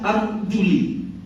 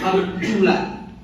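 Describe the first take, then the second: First: The word ends with an 'i' vowel. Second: The word ends with an 'a' vowel. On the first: "Bisa dibaca arjuli" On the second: "Bisa di fathah atau di nasab, ya. Yaitu arjula"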